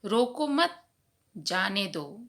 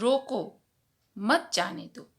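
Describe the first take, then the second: First: A pause comes right after the second word. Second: A pause comes right after the first word. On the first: Do not stop the person; let them go. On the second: Stop the person; do not let them go.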